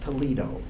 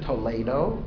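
First: The name is pronounced the American way. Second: The name is pronounced the Spanish way. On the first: It names the city in Ohio. The speaker calls it wrong. "not Toledo. That's in Ohio" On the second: It names the city in Spain. The speaker calls it right. "He goes to Toledo"

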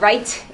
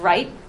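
First: The final T is audibly released. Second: The final T is not audibly released.

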